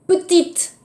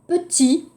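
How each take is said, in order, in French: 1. La consonne finale se prononce. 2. La consonne finale ne se prononce pas. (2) "마지막 자음은 발음하지 않은 것이 원칙"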